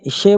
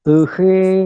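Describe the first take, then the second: First: The sh sound is made at the palate. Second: The sh sound is made with tongue curled back. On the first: The speaker calls it wrong. "वो तालु से बोलने का प्रयास कर रहे हैं" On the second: The speaker calls it right. "मूर्धन्य षकार है वो"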